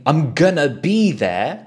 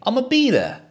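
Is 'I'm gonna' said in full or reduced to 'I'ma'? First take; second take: full; reduced. First: It starts with the longer form 'I'm gonna'. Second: It starts with the short blended form 'I'ma'. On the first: "instead of saying I'm gonna be there" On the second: "you can just say I'ma be there"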